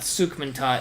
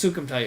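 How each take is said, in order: First: The middle part is said as 'man'. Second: The middle part is said as 'kum'. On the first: The speaker calls it wrong. "not Sukmantot" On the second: The speaker calls it right. "It's Sukumtot. You're absolutely right"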